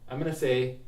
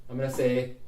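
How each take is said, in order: Both takes have the same delivery.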